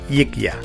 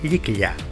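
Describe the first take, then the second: First: The first consonant is a plain y sound. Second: The first consonant is a palatal ly sound. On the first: The speaker calls it wrong. "y no yikya" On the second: The speaker calls it right. "se pronuncia yikya"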